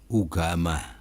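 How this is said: The word begins with an 'oo' vowel. This is how the word is said in Aceh. "kalau di Aceh sana, ya, ugama"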